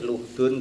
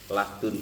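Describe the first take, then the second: First: The first vowel is a u sound. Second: The first vowel is an a sound. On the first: "dan juga boleh dibaca domah lamnya" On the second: "dengan dibaca fathah lamnya"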